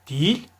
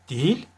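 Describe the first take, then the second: No difference in how they are said.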